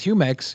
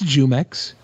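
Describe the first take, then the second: First: The first sound is a breathy H sound. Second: The first sound is an English J sound. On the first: This is the proper Spanish way. "it's definitely Spanish. Like you know, it is Jumex" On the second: This is how a non-Spanish speaker says it. "if you're not the Spaniard uh, educated linguist, it's Jumex"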